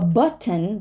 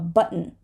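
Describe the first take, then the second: First: The T is fully released. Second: The T is held, not released. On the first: "a button becomes" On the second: "we're going to hold it before an N"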